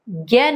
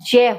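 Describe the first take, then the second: First: The syllable begins with a g-like sound. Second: The syllable begins with a j-like sound. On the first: The speaker calls it wrong. "इसका उच्चारण ज्ञ नहीं होता" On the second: The speaker calls it right. "जय होता है"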